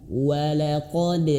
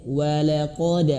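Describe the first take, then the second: No difference in how they are said.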